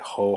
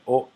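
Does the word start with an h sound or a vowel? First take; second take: h sound; vowel. First: The word starts with an audible h sound. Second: The word starts directly with the vowel. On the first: The speaker calls it wrong. "It's a common beginner mistake to say" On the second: The speaker calls it right. "keep that silent ... Say"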